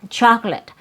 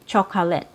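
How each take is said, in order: First: The word is said with two syllables. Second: The word is said with three syllables. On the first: The speaker calls it right. "It has three syllables, but... You only hear two" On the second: The speaker calls it wrong. "you're not going to hear native speakers say"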